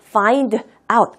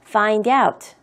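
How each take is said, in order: First: The two words are said separately, not linked. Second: The d links into out, sounding like doubt. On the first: The speaker calls it wrong. "아무도 find out 하고 발음하지 않습니다" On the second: The speaker calls it right. "연음으로 소리가 나요. 그래서 find out, find out 이렇게 들리는 겁니다"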